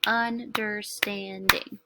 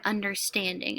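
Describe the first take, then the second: First: "Understanding" slow, in four even beats, UN, DER, STAND, ING; syllable by syllable. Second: Said in the usual way. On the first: Shown as a demonstration. Teacher claps to see if it has four, "Understanding" slowly split by syllable. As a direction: clap out "Understanding" one syllable at a time. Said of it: "gonna clap to see if it has four". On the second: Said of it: "and the word understanding".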